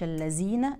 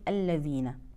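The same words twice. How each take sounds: First: The consonant sounds like a 'z'. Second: The consonant sounds like 'th' in 'this'. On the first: The speaker calls it wrong. "ما نقولش الذين" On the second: The speaker calls it right. "يقرأ ذال وليس زاي"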